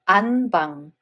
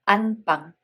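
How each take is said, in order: The two takes are said the same way.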